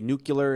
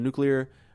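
First: The word is said as 'nu-cu-lar'. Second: The word is said as 'nu-clear'. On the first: This imitates a famous mispronunciation. The speaker calls it wrong. "he would say nuclear instead of" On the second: This is the standard form. The speaker calls it right. "instead of nuclear"

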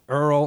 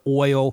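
First: The vowel is an 'ur' sound. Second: The vowel is an 'oy' sound. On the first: "Earl instead of oil" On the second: "instead of oil"

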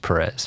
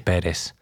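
First: The name is said with an American English pronunciation. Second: The name is said with a Spanish pronunciation. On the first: "growing up in the U.S. and Dallas and then Houston, it's always Perez" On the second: "It's definitely Perez, the right way to pronounce it"

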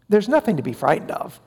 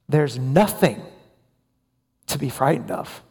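First: It is said quickly and casually. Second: It is said slowly with added emphasis. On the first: Death is not something to fear. "They say it quickly, casually" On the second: The nothingness after death is what is frightening. "slowly, with re-emphasis"

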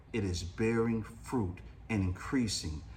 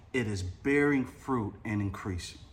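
The two takes are said the same way.

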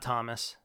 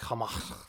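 First: The final s sound is pronounced. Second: The final s sound is silent. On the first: The speaker calls it wrong. "His name's not Thomas" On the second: The speaker calls it right. "It's like Thomas. Some French bullshit"

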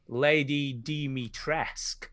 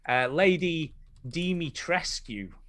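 First: The name ends without a final u sound. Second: The name ends with a final u sound. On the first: The speaker calls it right. "the U is silent" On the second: The speaker calls it wrong. "this is how I thought it was pronounced"

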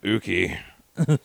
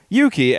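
First: The name starts with a plain 'oo' sound. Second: The name starts with a 'yoo' sound. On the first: The speaker calls it wrong. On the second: The speaker calls it right.

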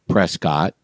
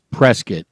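First: The second syllable is a full 'scott'. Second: The second syllable is reduced to 'skit'. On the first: This is how the family name is said. "So they pronounce their names Prescott, but not the city" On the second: This is how the city's name is said locally. "And if you do not say it correctly, they will be happy to educate you"

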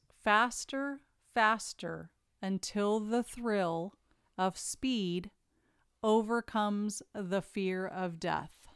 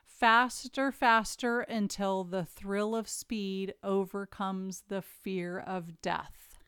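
First: It is read at a slower pace. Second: It is read at a quicker pace.

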